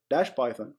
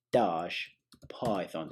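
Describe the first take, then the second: First: Said in the usual way. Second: Slow, badly faked British accent; terrible British accent. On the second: Shown as a demonstration. Tutor finishing a command for viewers, terrible British accent. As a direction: stretch it in a bad British accent. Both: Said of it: "That was a terrible accent".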